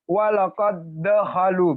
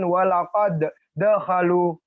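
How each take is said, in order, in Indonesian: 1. Huruf d terakhir melebur ke d berikutnya. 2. Huruf d terakhir dilafalkan terpisah sebelum dakhalu. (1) "adal yang mati tidak kita sebutkan begitu ya. Jadi penyebutannya terus ditasjid" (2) "Jangan walaqad dakhalu"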